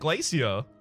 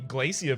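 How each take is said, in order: First: It uses the British or Australian pronunciation. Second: It uses the American pronunciation. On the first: "I used to say it Glacier" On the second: "I'm going to say Glacier now"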